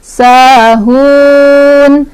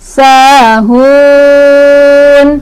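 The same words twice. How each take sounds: First: The vowel is held for two counts. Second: The vowel is held for four counts. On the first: "boleh dua" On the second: "boleh empat"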